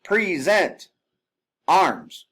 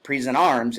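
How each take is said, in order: First: "present" drawn out higher, pause, "arms" loud; pause before arms. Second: Said in the usual way. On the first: Shown as a demonstration. Instructor demonstrating a drill command with a pause. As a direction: stretch "present", then bark "arms". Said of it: "have that pause between". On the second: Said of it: "It's not present arms".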